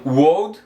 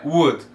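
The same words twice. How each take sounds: First: "would" said like "wold"; slow "would" mispronounced as "wold"; wrong pronunciation. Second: "would" said like "wud"; "would" with only the U in the middle; correct pronunciation. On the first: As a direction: say "would" with a long o and audible L. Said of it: "não would". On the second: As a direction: say "would" with a u sound, L silent. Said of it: "é would". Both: Shown as a demonstration.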